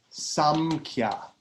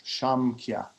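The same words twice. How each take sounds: First: Said in the usual way. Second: Shamkhya, starting on a soft sh. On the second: Shown as a demonstration. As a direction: say Shamkhya with sh instead of a hard s. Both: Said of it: "actually it's soft S".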